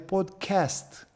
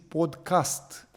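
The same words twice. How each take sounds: First: The second vowel is a distinct English vowel. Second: The second vowel is partly shifted toward English. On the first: "e o altă vocală" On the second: "au încercat să se adapteze, să spună mai în, în engleză"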